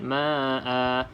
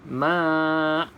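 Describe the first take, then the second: First: The word ends with a lengthened final vowel. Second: The word ends abruptly with no final vowel. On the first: The speaker calls it right. "Sebab kena baca dua harakat" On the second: The speaker calls it wrong. "kalau ada yang baca ma', ha, salah lah"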